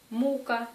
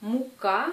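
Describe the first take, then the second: First: "Мука" as MOO-ka, falling after the first syllable; first-syllable stress. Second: "Мука" as mu-KA, rising on the end; second-syllable stress. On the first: Teacher naming suffering, "Мука" stressed on first syllable. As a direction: punch the u of "Мука". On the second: Teacher naming flour, "Мука" stressed on the last syllable. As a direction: hit the final a of "Мука". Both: Shown as a demonstration. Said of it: "la signification change si on met, euh, l'accent".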